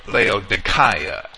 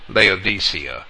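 First: The name is pronounced following the Greek. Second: The name is pronounced the usual English way.

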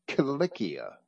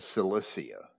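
First: The C letters are sounded as hard K. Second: The C letters are sounded as soft S. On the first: The speaker calls it right. "the C was always hard, like our K" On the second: The speaker calls it wrong. "It was never"

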